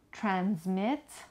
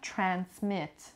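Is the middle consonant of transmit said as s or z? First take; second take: z; s. First: The middle consonant is a voiced z sound. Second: The middle consonant is a voiceless s sound. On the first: This is the American English pronunciation. "American English z" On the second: This is the British English pronunciation. "چه z بگم چه s"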